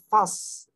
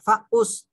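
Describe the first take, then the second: First: The fa runs straight into the s. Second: An extra vowel sounds between fa and s. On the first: The speaker calls it right. "tapi fas" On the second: The speaker calls it wrong. "bukan faus"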